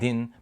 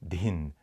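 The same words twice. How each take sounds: First: The d is said without a puff of breath. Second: The d is said with a puff of breath. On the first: This is the South Indian Tamil-based syllable. "you'll get ta and din" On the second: This is the North Indian Hindi-based syllable. "but not din"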